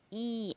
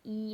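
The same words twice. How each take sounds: First: The vowel is said with a plain oral sound. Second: The vowel is said with a nasal sound. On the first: The speaker calls it right. "तालू से है ना" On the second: The speaker calls it wrong. "नाक से क्या, ई ऐसे तो कोई नहीं बोलेंगे"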